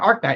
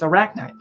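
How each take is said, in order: First: The name is said with two syllables. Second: The name is said with three syllables. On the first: The speaker calls it wrong. "it's not Arknight" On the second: The speaker calls it right. "It's Arachnite"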